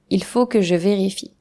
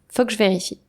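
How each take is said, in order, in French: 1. Tous les sons sont prononcés entièrement. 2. Le « il » tombe et les sons sont raccourcis. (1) "Voici une phrase exemple" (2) "Naturellement, je dirais"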